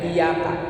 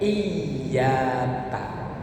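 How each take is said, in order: First: The y sound is single and short. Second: The y sound is doubled and held long. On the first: The meaning becomes very different. The speaker calls it wrong. "Jangan sampai bacanya iyaka" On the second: It means only to You. The speaker calls it right. "harus diteken. Kalau di Indonesia kan y-nya dibikin dua"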